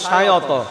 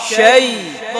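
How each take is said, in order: First: It is split into two syllables. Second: It is said as one gliding syllable. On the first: The speaker calls it wrong. "Common একটা ভুল করে হচ্ছে শায়ত" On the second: The speaker calls it right. "শায়ত হবে শাইত শাইত"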